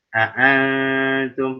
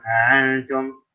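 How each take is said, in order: First: Both glottal catches are pronounced clearly. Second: The second glottal catch is softened and unclear. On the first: The speaker calls it right. "mesti ditahqiq, mesti jelas" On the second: The speaker calls it wrong. "jangan antum, yang a a hamzah keduanya seperti ashil ya, nggak jelas"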